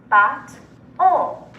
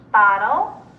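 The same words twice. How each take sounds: First: Bot-o as two parts with a pause; chopped into syllables. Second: Said in the usual way. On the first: Shown as a demonstration. Teacher segmenting Bot-o with students, chopped into syllables. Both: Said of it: "segment or chop it".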